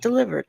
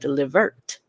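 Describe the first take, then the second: First: The word ends with a soft D sound. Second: The word ends with a sharp T sound. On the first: "not delivered" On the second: "but Delivert"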